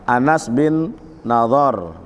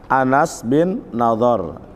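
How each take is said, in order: No difference in how they are said.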